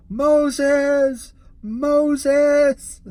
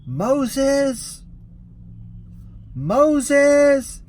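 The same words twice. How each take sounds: First: Loud high call, repeated; yelling Moses, high and loud; mock crazy yell. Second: Loud high call across a courtyard; shouting Moses, high and loud; yelling a name. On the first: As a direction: ham up the crazy guy calling out. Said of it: "crazy guy outside his car with his arms out going". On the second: Retold or imitated. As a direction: call out for a missing passenger at full voice. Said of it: "I start yelling out".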